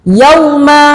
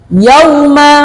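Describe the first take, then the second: No difference in how they are said.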